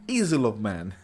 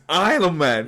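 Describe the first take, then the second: First: The first word sounds like 'easel'. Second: The first word sounds like 'isle'. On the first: The speaker calls it wrong. "I said easel" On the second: The speaker calls it right. "Oh, it's Isle of Man"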